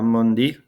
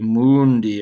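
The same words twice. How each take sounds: First: The u vowel sounds somewhat like uh. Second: The u vowel sounds more like oo. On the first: "I kind of made it sound like an u a little bit" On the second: "It would be more ooish"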